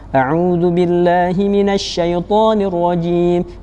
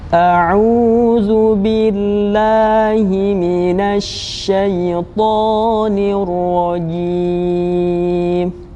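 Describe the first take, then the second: First: It is recited quickly. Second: It is recited very slowly and calmly. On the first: "yang fast atau cepat" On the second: "lebih tenang dan perlahan-lahan"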